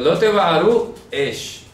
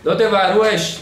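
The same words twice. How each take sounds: First: There is a pause before the last word. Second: The phrase runs together without any pause. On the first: You shall not consume with fire. The speaker calls it right. "Se tiene que hacer la pausa" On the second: You shall not kindle fire. The speaker calls it wrong. "de corrido"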